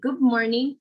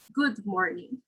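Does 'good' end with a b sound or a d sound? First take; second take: b sound; d sound. First: The final sound of good sounds like b. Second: The final sound of good is a clear d. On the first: "the D sound will become a B before the bilabial M sound. So we're going to say good morning" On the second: "instead of good morning"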